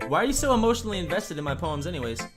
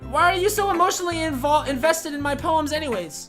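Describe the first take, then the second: First: It is said in the speaker's natural voice. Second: It is said in a put-on Natsuki voice.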